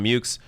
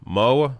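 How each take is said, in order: First: The final X sound is clearly pronounced. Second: The final X sound is left silent. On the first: The speaker calls it right. "but apparently you pronounce the X" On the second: The speaker calls it wrong. "which I thought was going to be pronounced Mo or Mio"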